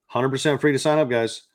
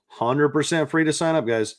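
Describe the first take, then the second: No difference in how they are said.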